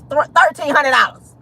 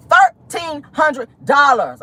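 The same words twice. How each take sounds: First: Higher, run together in disbelief; shocked price reveal. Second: "Thirteen hundred dollars" slow and high, every word punched; emphatic slow repeat. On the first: Host revealing the boot price, shocked. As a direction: blurt the price out, aghast. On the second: Host repeating "Thirteen hundred dollars" in disbelief, word by word. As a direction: hit "Thirteen", "hundred", "dollars" separately, drawn out. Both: Real, not acted.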